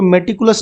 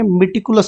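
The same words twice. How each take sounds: First: मेटिकुलस with an open "me" first syllable; wrong pronunciation. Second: मेटिकुलस with a short "mi" first syllable; correct pronunciation. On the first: Teacher shows students what to avoid, मेटिकुलस begun with "meh". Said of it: "इसको मेटिकुलस नहीं पढ़ेंगे". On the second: Teacher corrects students' reading, मेटिकुलस begun with short "mih". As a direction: begin मेटिकुलस with "mih", not "meh". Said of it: "मेटिकुलस पढ़ेंगे". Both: Shown as a demonstration.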